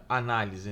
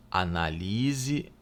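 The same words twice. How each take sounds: First: Análise with stress on the first syllable a-; noun form análise. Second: Analise said slowly with stress on -li-; verb form analise. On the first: Teacher showing the noun análise to students, stress on the first a. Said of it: "Então, analisar, análise". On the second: Teacher showing the verb Analise to students, stress on li. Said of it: "Então, é, análise, né?". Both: Shown as a demonstration.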